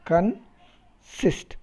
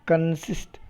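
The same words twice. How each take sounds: First: "consist" split as con, long pause, sist; syllable by syllable. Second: Said in the usual way. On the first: Shown as a demonstration. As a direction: break "consist" into two sound groups. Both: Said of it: "Con is a group of sound".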